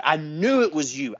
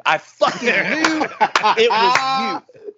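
First: Said in the usual way. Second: Slow, high, louder I fucking knew it; emphatic repeat. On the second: Retold or imitated. Friend repeating his accusation at the speaker, slow and emphatic. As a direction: drag out and hammer KNEW.

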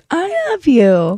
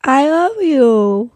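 First: Put-on slow, higher toddler "I love you" again; drawn-out baby voice, lifted pitch. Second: Put-on slow, higher toddler "I love you". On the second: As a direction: imitate a toddler's first "I love you", drawn out. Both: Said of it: "she says it like that for the first time".

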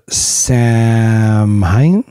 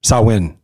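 First: "Samhain" sounded out very slowly as spelt, sam-hine, rising; unsure pronunciation. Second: "Samhain" said as SAH-win, falling; corrected pronunciation. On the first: Real, not acted. Host stumbling on a Celtic festival's name, unsure "Samhain" as sam-hine. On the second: Shown as a demonstration. Host showing how to say the festival, "Samhain" as SAH-win. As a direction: say "Samhain" briskly as sow-in, settled. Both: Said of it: "That's how you say it".

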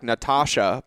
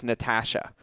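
First: Natasha with a broad AH, "na-TAH-sha"; mispronounced name. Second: Natasha with the A of "ash", "na-TASH-a"; corrected name. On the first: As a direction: say Natasha with the middle vowel of "father". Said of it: "I wanna say". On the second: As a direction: say Natasha with a short A as in "cat". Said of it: "but it's Ash". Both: Shown as a demonstration.

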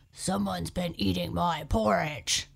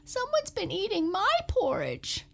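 First: Daddy Bear growl. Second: High, squeaky little cub voice; Baby Bear squeaking to his parents about his porridge. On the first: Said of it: "growled Daddy Bear". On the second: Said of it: "squeaked Baby Bear". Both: Acted.

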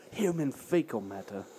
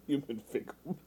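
First: Low quiet imitation of his voice; imitating his deadpan. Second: A hint of mocking his deadpan; Lizard voice. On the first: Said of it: "as he likes to say". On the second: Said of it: "the Lizard voice".

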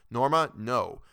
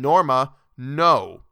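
First: Said in the usual way. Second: Much louder, cutting her off; shouted refusal. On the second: Acted. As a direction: shout her name to stop her. Arthur refuses again, pale.

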